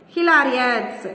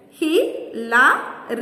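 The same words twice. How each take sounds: First: Said in the usual way. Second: "hilarious" slowly split as hi, la, ri, ous; syllable by syllable. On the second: Shown as a demonstration. Teacher counting syllables for children, "hilarious" broken up slowly. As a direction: pause between the four syllables of "hilarious". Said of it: "four syllables".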